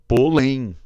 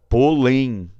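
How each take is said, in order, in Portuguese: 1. A sílaba tônica é a última. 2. A sílaba tônica é a última.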